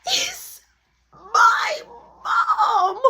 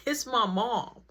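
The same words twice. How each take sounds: First: "It's my mom" drawn out word by word, much higher and louder, ending in a laugh; telling friends the shock, each word pulled apart; disbelieving emphasis. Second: Said in the usual way. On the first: Real, not acted. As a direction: spell out "my mom" in stunned disbelief.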